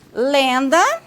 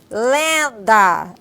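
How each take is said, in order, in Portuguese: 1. É dita com o nariz livre. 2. É dita com o nariz tapado. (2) "agora coloquem a mão no nariz"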